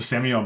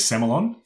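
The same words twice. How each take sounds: First: The word is said the fancier-sounding way. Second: The word is said the plain local way. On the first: This is used when trying to sell. "I default to Semillon because it sounds more fancy" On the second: This is how people in the area say it. "the local pronunciation around here is Semillon"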